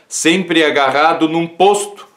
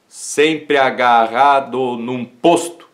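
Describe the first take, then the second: First: Said in the usual way. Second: "sempre agarrado num posto" very slow, syllable by syllable; syllable-by-syllable scansion. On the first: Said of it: "são sete sílabas poéticas". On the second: Shown as a demonstration. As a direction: scan "sempre agarrado num posto" slowly, marking each poetic syllable. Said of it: "Sete sílabas". ("sempre agarrado num posto" escandido devagar, sílaba por sílaba)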